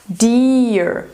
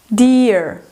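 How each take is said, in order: No difference in how they are said.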